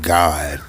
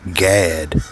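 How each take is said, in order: First: The vowel sounds like the one in 'hot'. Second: The vowel sounds like the one in 'cat'. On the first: This is how it is said here. "We just pronounce it God" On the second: This is how it is said in Europe. "in the Europe language, they, they pronounce that for short"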